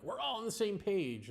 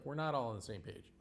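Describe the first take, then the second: First: "We're all on the same page" said higher and chirpy, a lightly mocking imitation; mock cheerful assumption. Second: "We're not all on the same page" lower and firm, with "not" punched; stress on not. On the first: Mocking buzzword fans who think they agree, lightly mocking chirpy imitation. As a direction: parrot their smug agreement, lifting "all". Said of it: "then they think, like". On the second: Real, not acted. Correcting buzzword fans, low firm stress on "not". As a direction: flatly correct them, hitting "not". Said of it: "and it's like".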